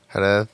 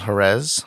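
First: The name is said with a Castilian Spanish pronunciation. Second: The name is said with an English pronunciation.

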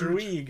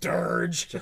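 First: The name sounds like druid ending in g. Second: The name sounds like the word dirge. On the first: The speaker calls it right. "Like Druid, but with a G" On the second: The speaker calls it wrong. "I'm pronouncing the name wrong"

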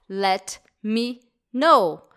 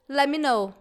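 First: The phrase is said at a normal pace. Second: The phrase is said quickly with reduced words. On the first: "Esse é para Let Me Know" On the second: "Falando um pouquinho mais rápido"

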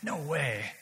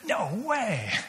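First: It sounds dismayed and negative. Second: It sounds delighted and positive. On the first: The surprise is unwelcome. "Which is a negative response to a surprise" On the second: The surprise is welcome. "The completely positive response"

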